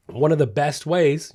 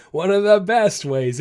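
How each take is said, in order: First: Said in the usual way. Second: One of the best ways, pitched higher and louder on "the"; building emphasis. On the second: Shown as a demonstration. Trainer teasing his favorite tip, louder on "the". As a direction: lean into "the" to tease the point. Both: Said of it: "you know it's coming".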